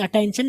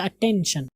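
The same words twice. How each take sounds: First: अटेंशन with a gliding "tain"; wrong pronunciation. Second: अटेंशन with a short "ten"; correct pronunciation. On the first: Teacher rejecting the mistake, अटेंशन with "tain". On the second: Teacher correcting learners, अटेंशन with short "ten". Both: Shown as a demonstration. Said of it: "अटेंशन नहीं होता".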